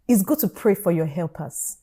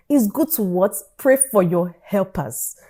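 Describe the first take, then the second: First: Said in the usual way. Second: Slow, spaced-out "Pray for your helpers"; emphatic repetition. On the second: Real, not acted. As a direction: quiz on "what", then land "Pray" firmly. Repeats advice as call for answer.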